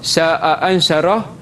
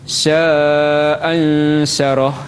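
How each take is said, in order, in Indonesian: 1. Mad dibaca dua ketukan. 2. Mad dibaca empat ketukan. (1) "Jadi dua harakat" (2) "iaitu dengan empat harakat"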